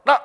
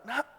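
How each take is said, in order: First: Put-on sharp, loud call to a child; usual fatherly call. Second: Reluctant. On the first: Father calling his child as usual, brisk and loud. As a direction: call out NAK briskly and loudly. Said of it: "biasanya papanya". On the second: Father reluctant to bother his child, hesitant. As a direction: say NAK gently, shy to impose. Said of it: "nadanya sungkan". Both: Shown as a demonstration.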